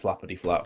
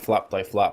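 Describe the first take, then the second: First: The middle part is said as 'ity'. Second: The middle part is said as 'die'. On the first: The speaker calls it right. "but of course it's flappity flap" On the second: The speaker calls it wrong. "I just realized I was calling him flap die flap"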